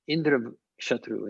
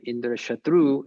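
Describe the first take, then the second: First: "Indra Shatru" with the accent on the first word, Indra; first-member accent. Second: "Indra Shatru" with high pitch on the final "tru". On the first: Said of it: "Bahuvrihi accent with the". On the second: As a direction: punch the last syllable of "Shatru", higher and louder. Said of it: "final sound having the high pitch". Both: Shown as a demonstration.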